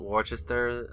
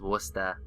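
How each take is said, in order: First: The word is said with all its spelled syllables. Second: The word is said in a shortened form. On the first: This is how the name is written. "Worcester is spelled Worcester" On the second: This is how people actually say the name. "everyone just says Worcester"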